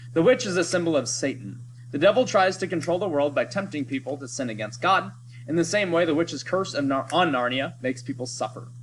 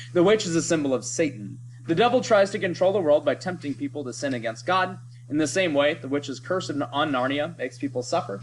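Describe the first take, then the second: No difference in how they are said.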